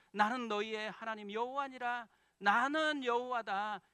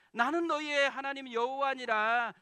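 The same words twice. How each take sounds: First: Stern voice of God. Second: Higher and much louder, proclaiming; loud, high proclamation of God's word; emphatic voice of God. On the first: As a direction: proclaim it like God giving the law, louder on the last line. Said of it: "이렇게 계속 이야기하거든요". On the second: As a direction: preach it out at full force. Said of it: "무슨 말이겠어요". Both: Pretend.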